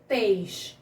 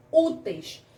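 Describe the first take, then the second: First: "úteis" split as ú... teis with a long pause; syllable by syllable. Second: Said in the usual way. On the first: Shown as a demonstration. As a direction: break "úteis" into two separate syllables. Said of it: "é a sílaba mais forte".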